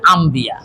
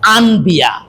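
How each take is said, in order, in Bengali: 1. 'b' এর আগে 'm' ধ্বনি আসে। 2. 'b' এর আগে 'n' ধ্বনি আসে। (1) "বা আসার কারণে হয়ে যাবে আম্বিয়া" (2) "শব্দটা কিন্তু আনবিয়া"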